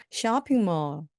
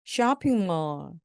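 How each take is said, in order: First: 쇼핑몰 said as English shopping mall, not Korean syllables; English sounds on 쇼핑몰; English-style shopping mall. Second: 쇼핑몰 drawn out slowly in English sounds; slow English shopping mall; slow English-style shopping mall. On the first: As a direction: say 쇼핑몰 like a native English word. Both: Shown as a demonstration. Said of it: "쇼핑몰처럼 발음해 주시면 정말로 영어스럽습니다".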